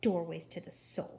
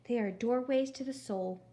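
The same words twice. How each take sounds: First: Lower, spluttering disbelief; sputtering. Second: Dreamy, sugary phone voice; too sweet voice. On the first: Eugenia repeating Gladys before slamming the phone, sputtering. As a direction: spit the words back in outrage. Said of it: "sputtered Eugenia". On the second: Gladys on the phone praising accordions, syrupy sweet. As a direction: offer it like a gentle revelation. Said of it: "in her too sweet voice". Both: Acted.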